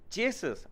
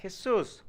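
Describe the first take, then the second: First: "Jesus" said the English way, JEE-zus; mispronounced "Jesus", as in English; wrong pronunciation. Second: "Jesus" said the Spanish way, heh-SOOS; Spanish pronunciation of "Jesus"; correct pronunciation. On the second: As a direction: say "Jesus" with an H sound, stressed on the end. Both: Acted. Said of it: "My name is pronounced".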